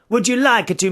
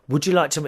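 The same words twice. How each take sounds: First: It is said in an Italian-sounding foreign accent. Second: It is said in the speaker's own plain accent.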